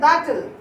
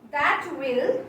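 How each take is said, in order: First: It is said as one contracted word. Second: It is said as two full words.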